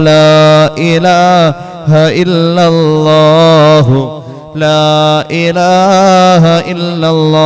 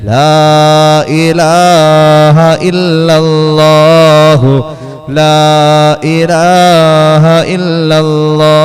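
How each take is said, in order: Both takes have the same delivery.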